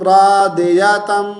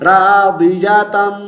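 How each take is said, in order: The two takes are said the same way.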